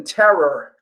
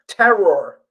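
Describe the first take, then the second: First: "terror" said like "Terra", the r-ending softened; New York terror. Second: "terror" with a clear "-ror" ending, fuller r; careful terror. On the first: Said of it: "I've got a New York accent". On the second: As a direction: spell out "terror" with a full second syllable. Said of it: "as in terror". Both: Shown as a demonstration.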